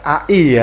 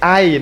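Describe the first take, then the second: First: It is said as two separate letter names. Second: It is said as one short word. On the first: The speaker calls it wrong. "bukan A I ya" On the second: The speaker calls it right. "Ini Ai, nama kota"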